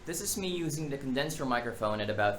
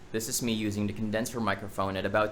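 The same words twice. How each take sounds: First: The voice is recorded about three feet away. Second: The voice is recorded about two feet away. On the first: "at about three feet away" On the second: "at about two feet away"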